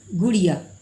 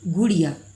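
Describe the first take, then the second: First: The first vowel is said short. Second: The first vowel is said short.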